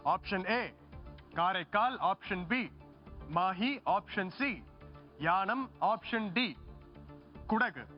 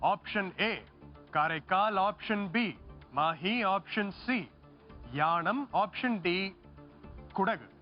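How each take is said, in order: No difference in how they are said.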